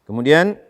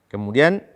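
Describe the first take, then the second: No difference in how they are said.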